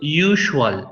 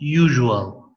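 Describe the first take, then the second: First: The middle consonant is a voiceless hissing sh. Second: The middle consonant is a voiced buzzing zh. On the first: The speaker calls it wrong. "It is not usual" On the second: The speaker calls it right. "it's usual"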